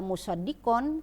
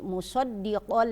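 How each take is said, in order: First: The final n sound is clearly pronounced. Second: The final n merges into an l sound. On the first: The speaker calls it wrong. "Tidak dibaca musaddiqon" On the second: The speaker calls it right. "tetapi musaddiqal lima"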